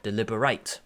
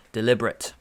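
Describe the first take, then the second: First: "deliberate" said del-IB-er-ate, ending in a long "-ate"; verb deliberate. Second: "Deliberate" said del-IB-er-it, ending in a short "-it"; adjective deliberate. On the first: Teacher giving the second pronunciation of deliberate to students. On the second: Teacher contrasting the two pronunciations of deliberate for students. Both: Shown as a demonstration. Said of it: "or the other pronunciation is".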